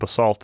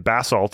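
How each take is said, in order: First: Basalt is said the usual American way. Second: Basalt is said the way English geologists say it.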